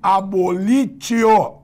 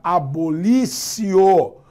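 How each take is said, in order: First: The middle consonant is a 't' sound. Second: The middle consonant is an 's' sound. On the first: This is how the word is written. "se escreve abolitio" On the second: This is how the word is pronounced. "mas se pronuncia abolicio"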